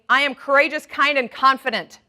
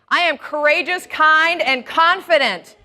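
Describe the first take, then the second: First: It is said plainly, without much conviction. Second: It is said with strong, heartfelt conviction.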